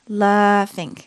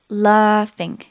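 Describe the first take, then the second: Both takes have the same delivery.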